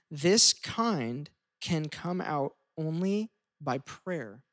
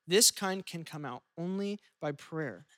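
First: Slow, weighty scripture reading; slow solemn reading. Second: Said in the usual way. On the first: Acted. Pastor reading Jesus' words, slow and weighty. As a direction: let each word land slowly. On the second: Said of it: "repeats the verse".

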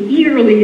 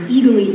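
First: Eagerly said higher and louder in a Boston accent. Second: Said in the usual way. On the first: Real, not acted. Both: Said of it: "that's my Boston accent coming out".

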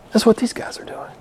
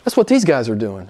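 First: Breathy whispered aside. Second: Said in the usual way. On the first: Shown as a demonstration. Preacher whispers the point to the congregation. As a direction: whisper it like a secret.

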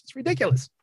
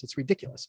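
First: Ridiculous pushed high, exasperated; emphatic repeat. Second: Said in the usual way. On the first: Real, not acted. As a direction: hit ridiculous hard the second time.

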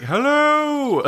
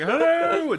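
First: Booming Monty Python hello; big boomed greeting, high and loud; magically amplified voice. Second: Big high hollered hello; magically amplified voice. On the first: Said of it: "make my voice really big". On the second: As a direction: yell it out to the city. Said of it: "Just like". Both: Shown as a demonstration.

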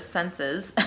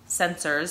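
First: Said in the usual way. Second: New England accent turning "senses" into "sensors". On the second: Shown as a demonstration. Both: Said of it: "that's my New England accent".

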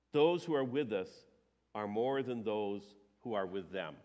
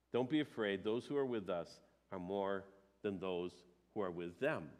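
First: Said in the usual way. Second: Soft reassurance. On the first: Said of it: "reads the prophet's reply again". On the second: Shown as a demonstration. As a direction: lower and softer, calm and sincere. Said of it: "repeats the reply softly".

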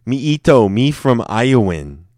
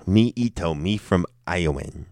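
First: Louder, higher mock-simpleton voice; big playful caveman-style introduction; hammed-up broken-English introduction. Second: Understated mock-simpleton introduction; broken-English introduction. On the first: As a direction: proudly announce yourself in broken English. Repeats joke introduction, bigger. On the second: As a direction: try the silly line out casually.

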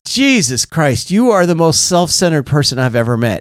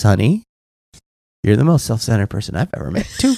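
First: Retold exasperation. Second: Understated, lower-key delivery after a sigh; retold deadpan confirmation. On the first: Sponsor on the phone before hanging up, exasperated verdict. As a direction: imitate a mildly exasperated sponsor. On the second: Wife answering upset husband, understated deadpan confirmation. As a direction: let the verdict drop gently and quickly.

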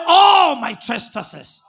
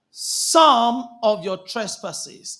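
First: "All" long, high and very loud; stress on ALL. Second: "some" drawn out and hit loud; stress on SOME. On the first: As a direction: proclaim "All" as the triumphant correction. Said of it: "What did it say?". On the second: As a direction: lean slowly on "some" as a deliberate misreading. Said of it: "Is that what it says?". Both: Shown as a demonstration.

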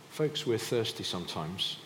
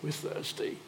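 First: Said in the usual way. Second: High, airy whimper of thirst; mock complaining. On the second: Israelites complaining of thirst, high mock whimper.

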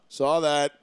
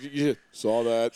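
First: Offhand, unbothered deadpan; nonchalant. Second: Slow, offhand deadpan; nonchalant. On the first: Paul calling out cheating from afar, nonchalant. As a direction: toss it off like it's nothing. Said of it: "this wicked nonchalant". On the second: Paul catching him fluffing the ball, slow nonchalant deadpan. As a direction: drag it out, totally unbothered. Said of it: "wicked nonchalant". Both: Retold or imitated.

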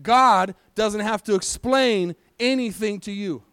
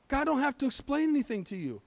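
First: Slow, weighty delivery, word by word; emphatic repeat. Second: Higher, much softer restatement; soft repeat. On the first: Preacher repeats it for those who need to hear it, slow and emphatic. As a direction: drive each word home slowly. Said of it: "need to hear it again, so I'm gonna say it". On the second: Preacher repeats it for doubters in the congregation, softly. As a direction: say it gently, pitched up and hushed. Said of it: "Do I need to say it again?". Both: Shown as a demonstration.

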